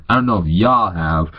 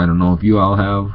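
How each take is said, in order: First: "y'all" said as one short drawled syllable, his own accent; fixing the line with "y'all" run together as one syllable; back in his own accent. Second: Said in the usual way. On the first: Shown as a demonstration. Correcting himself to viewers, "y'all" said as one syllable. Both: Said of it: "Lost my accent there for a second".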